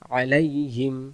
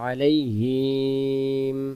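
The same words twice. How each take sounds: First: The vowel after h is short. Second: The vowel after h is drawn out long. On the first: The speaker calls it right. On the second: The speaker calls it wrong.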